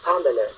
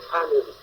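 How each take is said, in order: First: Family with a reduced schwa middle; correct family. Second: Family with full a and i, French-style; wrong family. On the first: Teacher modelling family for students, schwa middle. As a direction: weaken the middle vowel of family. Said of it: "Et non family". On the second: Teacher showing the common family mistake. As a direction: say family the way francophones do. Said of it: "comme nous disons souvent". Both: Shown as a demonstration.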